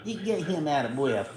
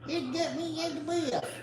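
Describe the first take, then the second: First: Said in the usual way. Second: High, soft voice speaking for the dog; voicing the dog. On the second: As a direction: talk as if you're the panting pet, softly and high.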